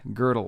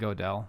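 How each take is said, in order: First: The name uses the speaker's newly learned pronunciation. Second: The name uses the speaker's old, anglicized pronunciation. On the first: The speaker calls it right. "But I learned Gödel or something like that" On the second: The speaker calls it wrong. "I mispronounced Gödel. I was saying Gödel"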